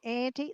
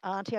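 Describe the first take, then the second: First: Auntie is said with an American pronunciation. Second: Auntie is said with a non-American pronunciation. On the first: This is the form the speaker uses now. "I just say Auntie. That's fine. I'm, I'm American now" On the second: This is not the form the speaker uses now. "I don't say Auntie"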